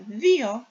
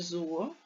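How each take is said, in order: First: The word begins with a soft 'th' sound. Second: The word begins with a buzzing 'z' sound. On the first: The speaker calls it right. "а δύο" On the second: The speaker calls it wrong. "не зуо"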